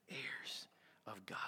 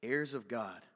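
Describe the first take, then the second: First: Slow, hushed whisper; barely audible, reverent whisper; awed whisper. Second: Said in the usual way. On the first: Real, not acted. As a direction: whisper it slowly, letting it sink in. Repeats the phrase in awe.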